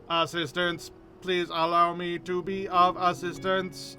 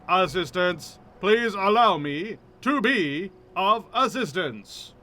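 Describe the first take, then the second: First: The voice sounds fully robotic and mechanical. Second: The voice sounds only partly robotic, more natural. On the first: The speaker calls it wrong. "I don't really want to do robot voice" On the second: The speaker calls it right. "something in between"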